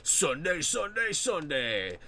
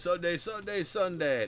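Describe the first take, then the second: First: Booming rising announcer chant; monster truck ad. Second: Rising announcer chant, lightly done; mock hype ad shout; monster truck ad. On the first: Retold or imitated. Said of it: "old monster truck commercials". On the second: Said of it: "advertise it as".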